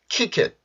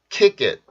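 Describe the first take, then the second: First: The linked k is a breathy, aspirated sound. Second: The linked k is a tense, unaspirated sound. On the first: The speaker calls it wrong. "킷이 되는 게 일반적이죠" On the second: The speaker calls it right. "키, 끼처럼 발음을 해요"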